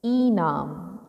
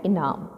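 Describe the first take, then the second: First: ईनाम with a long drawn ई at the start; wrong long vowel. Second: इनाम with a short quick इ; correct short vowel. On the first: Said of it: "ईनाम शुद्ध शब्द नहीं". (ईनाम में लंबा ई, गलत उच्चारण) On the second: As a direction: clip the इ short in इनाम, the right way. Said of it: "शुद्ध शब्द होता है इनाम". (इनाम में छोटा इ, शुद्ध उच्चारण) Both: Shown as a demonstration.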